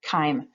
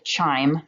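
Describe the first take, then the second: First: It begins with a 'k' sound. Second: It begins with a 'ch' sound. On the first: The speaker calls it right. "it's pronounced with a k" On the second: The speaker calls it wrong. "I know it looks like chime"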